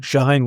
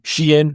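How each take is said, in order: First: "Shine" as one syllable; alternative pronunciation. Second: "Shein" in two syllables, SHEE-en; alternative pronunciation. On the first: Host corrects to another guess, "Shine" in one syllable. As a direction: say "Shine" like the English word. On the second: Host unsure of the brand name, "Shein" in two syllables. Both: Shown as a demonstration. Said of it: "Shine, whatever it is".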